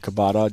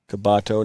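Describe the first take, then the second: First: The name ends in an 'ah' sound. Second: The name ends in an 'oh' sound. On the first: The speaker calls it wrong. "not Kabata" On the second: The speaker calls it right. "Kabato, not Kabata"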